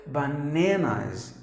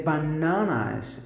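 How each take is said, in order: First: BANANAS as buh-NAN-uz, slowly; flat American A in BANANAS; American pronunciation. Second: BANANAS as buh-NAH-nuz, open AH; long British AH in the middle of BANANAS; British pronunciation. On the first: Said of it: "if you go to U S". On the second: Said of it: "If you go to U K". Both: Shown as a demonstration.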